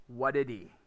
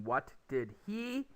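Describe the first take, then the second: First: "what did he" run into one word, "whadidee"; reduced, low-pitched "whadidee"; jammed together. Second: Slow "what did he", each word apart; careful, unlinked "what did he"; separate words. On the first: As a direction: drop the "h" of "he" and link it all. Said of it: "the words are going to jam together". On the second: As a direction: keep the spaces and the "h" in "he". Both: Shown as a demonstration.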